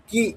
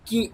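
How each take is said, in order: First: কি with a firm push on ক; stressed কি. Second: Said in the usual way. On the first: Shown as a demonstration. Teacher demonstrates stressed কি to students. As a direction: lean into the ক of কি. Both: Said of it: "কয়ের উপরে stress দেবো".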